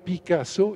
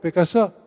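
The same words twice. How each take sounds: First: The A vowel is open and fully sounded. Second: The A vowel is weakened and dulled. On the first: This is the full, proper pronunciation of the vowels. The speaker calls it right. "on ne dit pas Picasso, I A O" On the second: This is how it is said on the radio nowadays. The speaker calls it wrong. "on dit Picasso"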